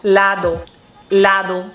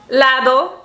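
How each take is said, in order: First: Lado drawn out low and falling; "Lado" repeated low and falling; savoring the brand name. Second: Lado with a bright rising end; "Lado" tossed up with a rising tune; playful brand name. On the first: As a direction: say "Lado" lower each time, like a deep brand announcer. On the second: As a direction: lift "Lado" up at the end like a question. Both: Shown as a demonstration. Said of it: "the brand of this brush is Lado".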